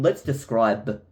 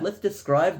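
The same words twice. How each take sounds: First: The word is said with a clear b sound. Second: The word is said without a clear b sound. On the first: "I just don't like with the B" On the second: "it just flows"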